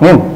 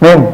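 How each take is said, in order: First: Only the last syllable of the word is said. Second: Only the last syllable of the word is said.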